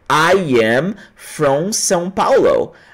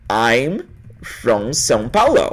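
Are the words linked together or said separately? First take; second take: separately; linked. First: Each word is said separately and fully. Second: The words are joined and contracted together. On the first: The speaker calls it wrong. "você acha que as pessoas vão falar assim" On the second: The speaker calls it right. "Eles vão conectar isso aí"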